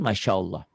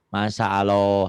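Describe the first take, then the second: First: The consonant after 'ma' is an 'sh' sound. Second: The consonant after 'ma' is a plain 's'. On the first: The speaker calls it right. "harusnya kan masya Allah" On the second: The speaker calls it wrong. "atau masa Allah"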